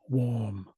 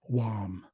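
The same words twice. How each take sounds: First: The vowel sounds like 'aw'. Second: The vowel sounds like 'ah'. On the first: "that's when it makes an "aw" sound" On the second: "it's more of an "ah" sound"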